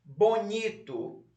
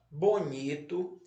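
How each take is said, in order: First: "Bonito" slow and higher, NI stretched, falling end; stress on NI. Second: "bonito" read slowly with a rising list tune; word dictation. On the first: Teacher shows pupils where to underline, "Bonito" stressed on NI. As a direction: lean hard on the middle of "Bonito". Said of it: "um tracinho embaixo da sílaba ni". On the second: Teacher repeats the word list for pupils, "bonito" in careful dictation. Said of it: "vamos lá repetir as palavras". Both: Shown as a demonstration.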